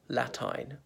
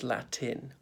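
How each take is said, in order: First: The second syllable has a long vowel. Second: The second syllable has a short vowel. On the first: The speaker calls it wrong. "she used to say Latine" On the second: The speaker calls it right. "but of course it's Latin"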